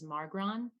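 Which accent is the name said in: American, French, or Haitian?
American. The name is said with an American accent. "the American way that I pronounce it"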